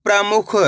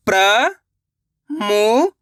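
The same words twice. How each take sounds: First: Said in the usual way. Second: प्रमुख stretched very slowly; slow drawn-out. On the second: Shown as a demonstration. Teacher sounding out प्रमुख for pupils, very slow.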